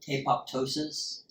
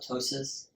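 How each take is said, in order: First: The second p sound is clearly pronounced. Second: The second p sound is left out. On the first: "Some people don't like apoptosis said that way" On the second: "the P is silent"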